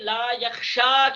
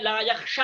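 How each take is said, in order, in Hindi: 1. आख़िरी स्वर लंबा है। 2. आख़िरी स्वर छोटा है। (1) "इसके आखिर में जो या है हरफ इल्लत" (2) "उसको गिरा देगा ये ला"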